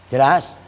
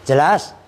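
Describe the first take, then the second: Both takes have the same delivery.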